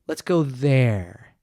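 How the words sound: The voice comes down at the end.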